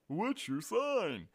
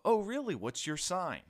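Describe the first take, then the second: First: Slow, high, loud mockery; mocking imitation, stretched and pitched way up; exasperated mocking repeat. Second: High, loud, eager imitation of a nosy questioner; mock-interested, pitched up high; mimicked eager questioner. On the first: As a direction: parrot the question back in disgust, drawn out. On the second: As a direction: play the clueless person asking. Mimics people asking his star sign.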